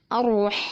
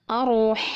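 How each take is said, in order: No difference in how they are said.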